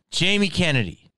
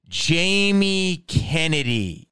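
First: Said in the usual way. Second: Drawn-out announcer; slow announcer intro. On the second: Shown as a demonstration. Announcing himself slowly, announcer style. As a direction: announce the name slowly, like a host.

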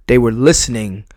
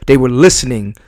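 Both takes have the same delivery.

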